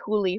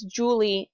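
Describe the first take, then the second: First: The name starts with an H sound. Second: The name starts with a J sound. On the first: "a J in Spanish sounds like an H" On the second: "you would say her name is Julie in English"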